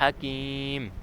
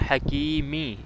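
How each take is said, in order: First: The word ends on a bare m sound. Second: The word ends with an -i sound. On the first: This is the form used when stopping. "इसका वक़फ़ हो गया हकीम" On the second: This is the full form without stopping. "हकीमी ज़ेर है मीम के नीचे"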